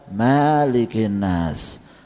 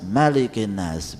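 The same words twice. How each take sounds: First: The first vowel of malikin is drawn out long. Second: The first vowel of malikin is kept short. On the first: The speaker calls it wrong. "Tidak dibaca malikin nas" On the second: The speaker calls it right. "enggak panjang"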